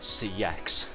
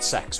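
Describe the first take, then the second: First: The name is spelled out as two letters. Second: The name is said as one word. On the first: "pronounce it C X" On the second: "I pronounce it sex"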